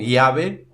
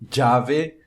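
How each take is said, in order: First: The ll sounds like an i glide. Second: The ll sounds like a dj sound. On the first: "como se fosse um I" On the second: "como se fosse um D J"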